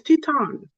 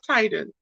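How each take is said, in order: First: The first vowel sounds like 'ee'. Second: The first vowel sounds like 'eye'. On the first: The speaker calls it right. "It's Teton" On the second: The speaker calls it wrong. "his name is not Titan"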